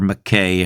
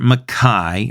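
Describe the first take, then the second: First: The name is said in the speaker's home pronunciation. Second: The name is said in its original pronunciation.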